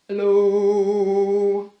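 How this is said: It is said in a very low voice.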